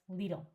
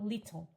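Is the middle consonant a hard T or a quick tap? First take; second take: tap; hard T. First: The middle consonant is a quick tap. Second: The middle consonant is a hard T. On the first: The speaker calls it right. "it's little" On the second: The speaker calls it wrong. "this word is not little"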